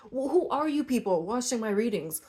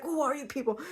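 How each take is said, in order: First: Said in the usual way. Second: Higher, pointed mock demand; mock aggressive. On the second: Reader mocking her blunt question to viewers, higher mock aggressive. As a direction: playfully imitate your own blunt question. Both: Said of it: "I'm sorry I sound so aggressive".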